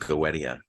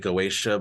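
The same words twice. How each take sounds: First: The word is said without a 'sh' sound. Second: The word is said with a 'sh' sound. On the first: The speaker calls it right. "I think it's just Goetia" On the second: The speaker calls it wrong. "the Greek had that sh sound"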